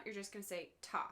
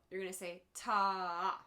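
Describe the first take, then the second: First: Quick, clipped ta for a quarter note; one short beat, ta. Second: Ta stretched long for a half note; held ta. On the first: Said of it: "every time you see a quarter note". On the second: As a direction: hold the ta for two beats. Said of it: "Every time you see a half note". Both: Shown as a demonstration.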